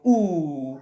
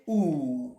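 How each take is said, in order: First: Short rounded oo, lips pushed out; quick little oo, like blowing while flying a kite. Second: Drawn-out ऊ, low and soft like a letdown; long oo. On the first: Teacher shows the short oo to pupils, quick and rounded. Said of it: "ऊ ऐसे करते हो ना". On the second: Teacher acts the sigh over a cut kite, a long ऊ. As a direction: stretch the ऊ out, the kite has been cut. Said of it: "तो छोटा ऊ और बड़ा ऊ". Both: Shown as a demonstration.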